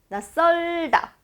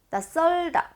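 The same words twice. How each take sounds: First: The second syllable starts with a tensed ss. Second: The same.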